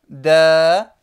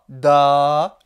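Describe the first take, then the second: First: The vowel is thin and high. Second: The vowel is dark and emphatic. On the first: The speaker calls it right. "mais plutôt ba, da, la" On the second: The speaker calls it wrong. "je ne dis pas ba, da, la"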